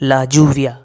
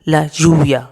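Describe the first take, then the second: First: Lluvia begins with a j sound. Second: Lluvia begins with a y sound.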